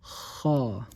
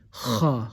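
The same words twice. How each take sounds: First: The throat sound is light, with just air. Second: The throat sound is forced and harsh. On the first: The speaker calls it right. "Just give me the air. On top of your throat" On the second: The speaker calls it wrong. "Don't say ha, ha. That's too much"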